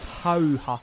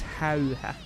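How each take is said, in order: First: The vowels are plain open ah sounds. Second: The vowels are fronted ä sounds. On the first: The speaker calls it wrong. "it's not how ha" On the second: The speaker calls it right. "That's an umlaut on the A"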